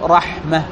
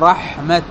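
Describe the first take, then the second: First: The word ends with an h sound. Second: The word ends with a t sound. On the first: The speaker calls it right. "فهنا الأفصح الوقف بالهاء" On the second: The speaker calls it wrong. "وبعضهم يقف بالتاء"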